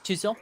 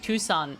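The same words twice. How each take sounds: First: It is said in a put-on French accent. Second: It is said in a plain American accent.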